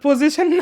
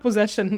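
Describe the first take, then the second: First: The word sounds like 'position', with a 'z-ish' middle. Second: The word sounds like 'possession', with a 'zesh' middle. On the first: The speaker calls it wrong. "ওটা আসলে পজিশন না" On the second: The speaker calls it right. "ওটা আসলে পজেশন"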